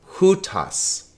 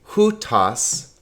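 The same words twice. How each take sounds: First: The stress is on the first syllable. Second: The stress is on the first syllable.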